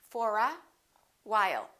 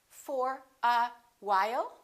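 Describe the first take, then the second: Both takes have the same delivery.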